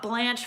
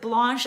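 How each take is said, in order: First: The name is said with an English pronunciation. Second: The name is said with a French pronunciation. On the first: This is how the name is said on a TV show. The speaker calls it wrong. "not Blanche from the Golden Girls" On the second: This is how the speaker's own name is said. The speaker calls it right. "I pronounce it Blanche"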